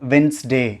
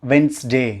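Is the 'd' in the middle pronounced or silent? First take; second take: silent; silent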